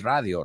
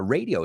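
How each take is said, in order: First: It is said with Spanish vowels and stress. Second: It is said with English vowels and stress. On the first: The speaker calls it wrong. "we don't say radio" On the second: The speaker calls it right. "it's called Radio Days"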